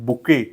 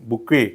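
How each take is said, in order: No difference in how they are said.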